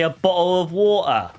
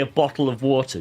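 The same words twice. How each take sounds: First: It is said in a put-on British accent. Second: It is said in the speaker's normal accent.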